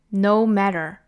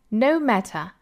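First: It is said in an American accent. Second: It is said in a British accent. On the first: "美音版" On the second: "首先是英音版。"

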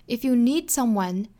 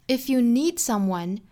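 Both takes have the same delivery.

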